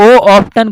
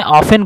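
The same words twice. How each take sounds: First: "ऑफ्टन" with a T after the F; often with T sounded. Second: "ऑफन" with no T after the F; often with silent T. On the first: Teacher slipping into the spelt reading, T sounded in "ऑफ्टन". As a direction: pronounce the T in "ऑफ्टन". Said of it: "ऑफ्टन बोल रहा हूँ मैं". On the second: Teacher correcting the reading for students, T silent in "ऑफन". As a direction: leave the T out of "ऑफन". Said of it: "टी silent है". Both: Shown as a demonstration.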